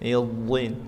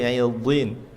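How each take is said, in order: No difference in how they are said.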